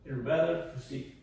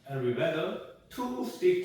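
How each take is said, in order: First: It is said quickly, with words run together. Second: It is said slowly, word by word. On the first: "점점 빨라지면서" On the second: "처음에"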